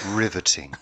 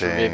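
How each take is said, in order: First: It is said sincerely, with genuine interest. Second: It is said sarcastically, with mock interest.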